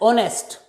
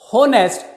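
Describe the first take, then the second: First: The word begins with a vowel, h silent. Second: The word begins with an audible h sound. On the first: The speaker calls it right. "That's why it is pronounced as honest" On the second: The speaker calls it wrong. "it is never spoken as honest"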